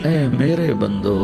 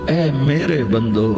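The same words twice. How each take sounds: No difference in how they are said.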